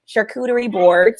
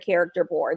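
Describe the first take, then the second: First: The first word is said as 'shar-koo-ter-ee'. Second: The first word is said like 'character'. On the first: The speaker calls it right. "that is how you say it" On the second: The speaker calls it wrong. "I've heard people say"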